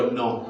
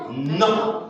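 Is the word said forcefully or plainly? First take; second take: plainly; forcefully. First: It is said plainly, without emphasis. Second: It is said forcefully, with strong emphasis.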